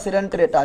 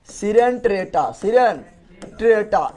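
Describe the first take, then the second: First: Said in the usual way. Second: सिरेंट्रेटा very drawn out, part by part; slow dictation of सिरेंट्रेटा, with breaks between parts; slow syllable drill. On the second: Shown as a demonstration. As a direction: sound out सिरेंट्रेटा slowly for the class. Drilling the phylum name slowly.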